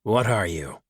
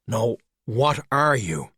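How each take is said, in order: First: Said in the usual way. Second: "are" leaned on, slow and pointed; "are" stressed with a falling tune. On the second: Acted. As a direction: press the word "are" to insist. Skullduggery repeats his question.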